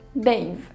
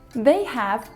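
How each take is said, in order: First: It is shortened to one syllable. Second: It is said as two full words.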